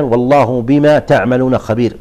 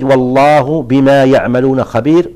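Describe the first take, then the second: First: "تعملون" starting with a clear ta sound; reading with ta. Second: "يعملون" starting with a clear ya sound; reading with ya. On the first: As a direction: recite it with "تعملون" opening on "ta". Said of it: "وأحيانًا". (قراءة «تعملون» بالتاء) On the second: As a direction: recite it slowly, opening "يعملون" on "ya". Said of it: "فمثلًا يرد". (قراءة «يعملون» بالياء) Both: Shown as a demonstration.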